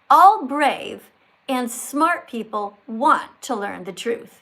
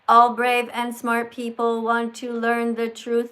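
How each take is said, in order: First: It is read with pauses and emphasized words. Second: It is read flat, with no pauses or emphasis. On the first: The speaker calls it right. "like this" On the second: The speaker calls it wrong. "don't read it like this"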